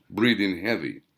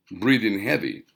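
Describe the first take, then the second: No difference in how they are said.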